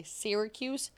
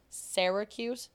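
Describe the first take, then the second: First: Syracuse opening on "seer", pitched as a sample; flattened Syracuse. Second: Syracuse said slowly, first syllable like "sair". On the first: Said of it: "for those who say Syracuse". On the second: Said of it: "Do you hear the difference?". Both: Shown as a demonstration.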